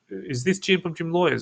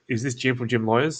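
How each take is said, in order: First: The tone is hesitant and salesy. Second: The tone is relaxed and familiar. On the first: The caller is a stranger selling something. The speaker calls it wrong. "it doesn't come across like" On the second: The caller already knows the person. The speaker calls it right. "I come across as more like someone who kind of already knows them"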